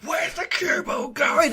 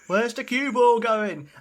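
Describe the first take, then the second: First: It is screamed at full volume. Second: It is said louder and more animated.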